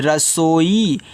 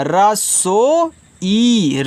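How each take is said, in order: First: Said in the usual way. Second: रसोई drawn out slowly, the long ई held; stretched long. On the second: Shown as a demonstration. Teacher to children, sounding out रसोई slowly. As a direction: stretch रसोई syllable by syllable, leaning on ई. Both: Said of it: "बड़ा वाला ई है तो जोर से बोलना".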